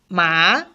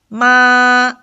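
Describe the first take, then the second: First: The pitch rises from middle to high. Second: The pitch stays high and level throughout. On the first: "The second tone is called rising tone... from three rising up to five" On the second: "the first tone is from five to five... it doesn't change... the flat tone"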